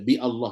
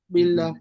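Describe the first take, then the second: First: The prefix is cut off by a glottal stop. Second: The prefix runs straight into the word, no glottal stop. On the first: The speaker calls it wrong. "Mana mana ada orang baca bi Allah lagi dah?" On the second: The speaker calls it right. "Orang akan baca billah"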